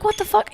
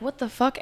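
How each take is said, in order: First: Higher, sharp shocked exclamation; alarmed disbelief. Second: Stunned mutter. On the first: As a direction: jump up in pitch, genuinely startled. Sees him flashing a gun. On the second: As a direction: mutter it, half to yourself, confused. First sight of the stranger approaching. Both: Retold or imitated.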